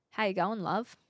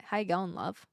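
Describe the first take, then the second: First: Careful try at an Aussie greeting; lightly put-on Aussie accent; Aussie accent attempt. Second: Lazy, low-effort Aussie greeting; lazy Aussie accent. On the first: Streamer practicing for viewers, careful Aussie accent. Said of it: "doing an Aussie accent turns me Kiwi". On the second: Streamer testing a looser take, lazy Aussie accent. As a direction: let the Aussie accent slouch, trailing softer. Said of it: "if I'm lazy with it". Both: Shown as a demonstration.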